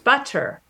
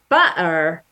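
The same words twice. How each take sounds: First: The middle consonant is a full t sound. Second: The middle consonant is a glottal stop. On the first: The speaker has a standard Southern British accent. "if you're a speaker of standard Southern British English, you make a T sound" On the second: The speaker has a Cockney accent. "If you're a Cockney speaker, you use a glottal stop"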